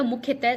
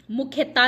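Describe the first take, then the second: First: मुख्यतः ending in short -teh; short breath of h closing मुख्यतः; correct form. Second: मुख्यता ending in long aa; wrong form. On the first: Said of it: "मुख्यतः शुद्ध शब्द है". (सही उच्चारण, मुख्यतः) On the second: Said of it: "मुख्यता नहीं होता". (गलत उच्चारण, मुख्यता) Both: Shown as a demonstration.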